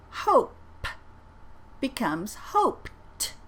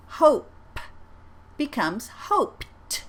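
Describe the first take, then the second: First: "hoped" repeated slowly with a crisp T; second slow model of "hoped"; careful ED sound. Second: "hoped" said slowly with a clear T at the end; slow teacher model of "hoped"; careful ED sound. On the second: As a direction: land the T in "hoped". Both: Shown as a demonstration. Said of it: "I'm gonna say them twice".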